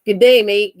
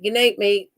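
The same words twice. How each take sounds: First: Put-on Australian accent. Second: Said in the usual way. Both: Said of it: "How do you say that in Australia?".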